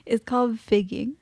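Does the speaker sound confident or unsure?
unsure. It is said hesitantly, with no confidence.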